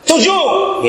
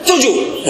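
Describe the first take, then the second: First: Snapped out high and sharp, a laugh in it; angry answer. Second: A high, curt, annoyed reply; still angry answer. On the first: Disciples snapping the count back at Jesus, angry. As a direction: bark the number back in irritation. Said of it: "Nah, salah". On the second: Disciples still grumbling the count to Jesus, annoyed. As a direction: toss the number back, still irritated. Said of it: "Masih marah ini". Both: Shown as a demonstration.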